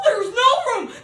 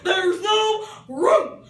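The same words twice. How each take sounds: First: High, loud wailing shout; cried out. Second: Loud, high and slow; drawn-out shout. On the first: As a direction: wail the refusal at her. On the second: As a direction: stretch the words as a jeer. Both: Acted. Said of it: "they cried out".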